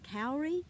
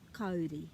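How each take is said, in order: First: It is said with anglicized English vowels. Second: It is said with clear Māori vowels. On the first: The speaker calls it wrong. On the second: The speaker calls it right.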